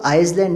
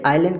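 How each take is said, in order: First: An s sound is heard in the word. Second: No s sound is heard in the word. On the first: The speaker calls it wrong. "आप आइसलैंड नहीं कहते" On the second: The speaker calls it right. "आइलैंड कहते हैं"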